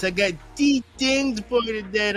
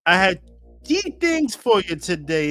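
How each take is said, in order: First: Higher, playful Jamaican accent. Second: Said in the usual way. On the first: Shown as a demonstration. Host greeting viewers in a Jamaican accent. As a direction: hype the show up in a Jamaican accent. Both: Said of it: "in the Jamaican voice".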